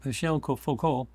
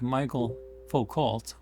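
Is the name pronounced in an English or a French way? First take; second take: French; English. First: The name is said with a French pronunciation. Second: The name is said with an English pronunciation. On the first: The speaker calls it right. "it's Michel Foucault in French" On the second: The speaker calls it wrong. "the way it's spelled in English, it's like Michael Foucault"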